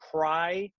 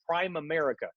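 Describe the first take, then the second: First: It is said as one blended word, 'prim-erica'. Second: It is said as 'prime' plus 'America'. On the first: The speaker calls it right. "So it's Primerica, Primerica, just like that" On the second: The speaker calls it wrong. "a lot of people make a mistake and they call it Prime America. It's not that"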